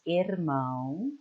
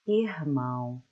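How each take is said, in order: First: The R sounds like a Spanish R. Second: The R sounds like a light H. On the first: "like the Spanish R" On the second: "I speak in R like an H, light H sound"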